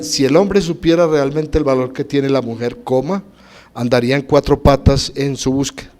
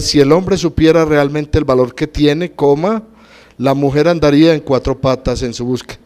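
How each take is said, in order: First: The break comes after the word mujer. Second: The break comes after the word tiene.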